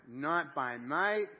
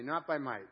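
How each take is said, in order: First: Very slow, drawn-out, loud recitation; slow and loud, each word held; leading group reading. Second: Said in the usual way. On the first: Shown as a demonstration. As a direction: stretch it out so a congregation can read along. Leads congregation reading aloud together.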